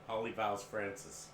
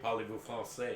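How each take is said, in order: First: It is said like English words, mangling it. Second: It is said with French-sounding pronunciation. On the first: The speaker calls it wrong. "He would say polyvowels Francis" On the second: The speaker calls it right. "My friend couldn't even say parlez-vous français"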